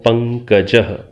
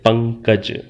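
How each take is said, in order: First: The word ends with a breathy h-sound. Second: The word ends plainly, with no final breath. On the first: This is the Sanskrit form. "Sanskrit में इसका उच्चारण जैसे मैं कर रहा हूं ... विसर्गांत" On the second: This is the everyday Hindi form. "आप सामान्य रूप से हिंदी में शायद इतना ही कहते हैं"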